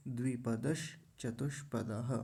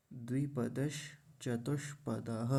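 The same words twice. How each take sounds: First: 'द्विपदश चतुष्पदः' as one phrase; no break in 'द्विपदश चतुष्पदः'; joined up. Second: 'द्विपदश', pause, 'चतुष्पदः'; measured 'द्विपदश चतुष्पदः' with clear sh sounds; separate words. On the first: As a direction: link 'द्विपदश' straight into 'चतुष्पदः'. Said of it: "अब मिला देंगे". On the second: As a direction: break between 'द्विपदश' and 'चतुष्पदः'. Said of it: "ऐसा बोलेंगे". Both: Shown as a demonstration.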